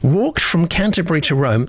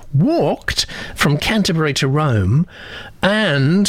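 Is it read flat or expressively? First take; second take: flat; expressively. First: It is read in a flat, plain way. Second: It is read in a lively, expressive way.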